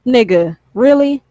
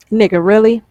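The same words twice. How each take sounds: First: Really? jumps up high in disbelief; incredulous really. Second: Said in the usual way. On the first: Shown as a demonstration. Ranting at young viewers, really? in high disbelief. Mock reaction to dumb posts.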